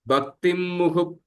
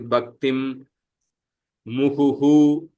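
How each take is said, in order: First: The final h is reduced to a half sound. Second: The final h is fully voiced with an echoed vowel. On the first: The word is said within the whole verse. "But together" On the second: The word is said on its own. "I would say Bhaktim muhuhu full visarga"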